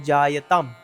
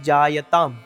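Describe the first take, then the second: The two takes are said the same way.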